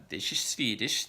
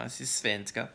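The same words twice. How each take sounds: First: "This is Swedish" in a slow Swedish lilt, the w as an f; Swedish accent. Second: "This is svenska" with svenska said the Swedish way, sfenska. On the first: Showing how Swedes sound in English, slow Swedish accent. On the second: Contrasting English with Swedish, svenska said natively. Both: Shown as a demonstration. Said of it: "in its kind of tonal rhythm".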